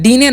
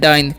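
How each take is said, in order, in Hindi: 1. इसमें 'ee' की आवाज़ है और अंत में एक स्वर है। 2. इसमें 'eye' की आवाज़ है और अंत में कोई स्वर नहीं है। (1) "डीने नहीं पढ़िएगा" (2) "क्या पढ़ना है?"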